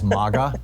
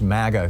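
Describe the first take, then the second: First: The first vowel sounds like in mama. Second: The first vowel sounds like in maggot. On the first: It avoids sounding like an insulting word. "which sounds kind of like mama" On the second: It sounds like an insulting word. "sounds too much like maggot"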